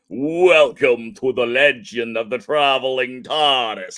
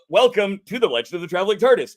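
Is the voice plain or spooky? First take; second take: spooky; plain. First: It is said in a spooky put-on voice. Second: It is said in a plainer, less spooky voice.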